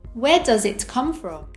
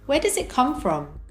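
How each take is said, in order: First: Each word is said separately and fully. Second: The words are linked and reduced together. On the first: "without connected speech" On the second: "with connected speech"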